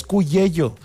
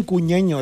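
First: CUYELLO with y sounds replacing each ñ; corrected nickname. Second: CUÑEÑO said with ñ sounds; mistaken nickname. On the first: Host correcting a friend's nickname, CUYELLO pronounced with y sounds. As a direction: say "Cuyello", a y sound in both last syllables. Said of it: "con doble Y". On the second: Host questioning a friend's nickname, CUÑEÑO pronounced with ñ. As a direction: say "Cuñeño", an ñ in both last syllables. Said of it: "Es Cuyello, con doble Y". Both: Shown as a demonstration.

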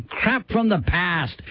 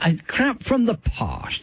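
First: "Past" with a flat American a, like "pæst"; American-sounding Past. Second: "Past" with a long broad British a, like "pahst". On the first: Radio host trying out the show name, flat American "Past". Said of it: "makes me sound like I'm doing a bad American accent". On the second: Radio host trying the show name again, broad British "Past". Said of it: "doesn't sound right the other way". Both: Shown as a demonstration.

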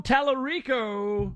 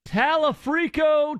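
First: Careful, corrected "Talarico"; correct pronunciation. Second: Drawn-out "Talafrico", the wrong name with an f; wrong pronunciation. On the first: Host correcting the caller with a careful "Talarico". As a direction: say "Talarico" slowly as "ta-la-REE-co" with an r, no f. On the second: Host repeating the caller's mistaken "Talafrico" slowly. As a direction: say "Talafrico" slowly with an f sound, "ta-la-FRI-co". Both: Shown as a demonstration.

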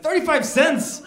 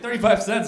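First: High, loud incredulous echo; outraged disbelief. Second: Said in the usual way. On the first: Retold or imitated. Customer balking at the price of cheese, outraged disbelief. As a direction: throw the price back in comic outrage.

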